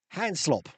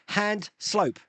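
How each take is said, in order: First: The last word has a short 'o' vowel. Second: The last word has a long 'oh' vowel. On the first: "Hand slop sounds better" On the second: "it's pronounced hand slope"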